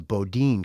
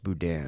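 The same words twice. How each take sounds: First: Boudin said as "boh-DEEN"; mispronounced Boudin. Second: Boudin said as "boo-DAN"; corrected Boudin. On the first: Real, not acted. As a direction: say Boudin to rhyme with "routine", first syllable "boh". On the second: Shown as a demonstration. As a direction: say Boudin with "boo" first and a short "an" ending. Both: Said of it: "I think it's pronounced Boudin".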